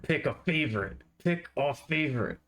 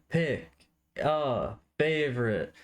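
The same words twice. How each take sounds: First: High menacing chant, jabbing each word; threatening. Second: High, slow announcer call; game show host. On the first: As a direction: point and threaten with every word. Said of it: "more of a threatening, pointing at me with each word". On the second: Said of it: "as, like, a game show style". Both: Pretend.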